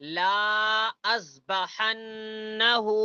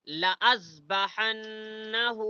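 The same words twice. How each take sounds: First: The first vowel is stretched long. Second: The first vowel is kept short. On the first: The speaker calls it wrong. "ऐसा पढ़ना गलत है" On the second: The speaker calls it right. "ऐसा पढ़ना सही है"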